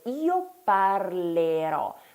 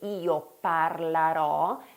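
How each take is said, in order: First: The vowel after 'parl' is an 'e' sound. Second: The vowel after 'parl' is an 'a' sound. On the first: The speaker calls it right. "dobbiamo invece ricordare di dire io parlerò" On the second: The speaker calls it wrong. "anziché dire io parlerò, che viene spontaneo a molti studenti"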